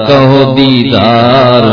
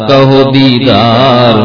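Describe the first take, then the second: The two takes are said the same way.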